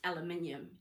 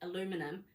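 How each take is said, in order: First: It is said the British way. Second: It is said the American way. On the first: The speaker calls it right. "it's aluminium" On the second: The speaker calls it wrong. "really it's like how you say aluminum, that's not the way it is"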